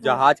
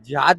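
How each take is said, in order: First: The first syllable has an 'a' vowel. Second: The first syllable has an 'i' vowel. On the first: The speaker calls it right. "जहाज कहते हैं" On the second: The speaker calls it wrong. "जिहाद नहीं कहे वाला"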